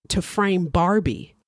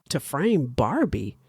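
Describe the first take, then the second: First: Said in the usual way. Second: Slow questioning echo of BARBIE; BARBIE pitched up in disbelief; incredulous echo. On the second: A narrator's reading. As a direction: repeat it slowly, swooping up sharply on BARBIE. Steve echoes her words in disbelief.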